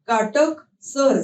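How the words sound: The word is split into two parts.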